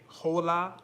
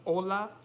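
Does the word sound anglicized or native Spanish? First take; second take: anglicized; native Spanish. First: The word has an English-sounding, non-native pronunciation. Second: The word has a native-like Spanish pronunciation. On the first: The speaker calls it wrong. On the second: The speaker calls it right.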